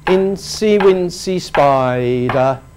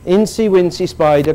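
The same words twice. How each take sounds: First: The first vowel of spider is stretched long. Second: The first vowel of spider is said short. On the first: The regular rhythm of the line is kept. The speaker calls it right. "We make that sound long to keep the rhythm" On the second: The rhythm of the line is lost. The speaker calls it wrong. "If we say spider, Incy Wincy Spider climbing up, the rhythm has gone"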